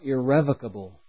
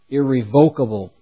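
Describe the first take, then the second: First: The syllables carry their usual stress pattern. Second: The syllables carry a shifted, deliberate stress pattern.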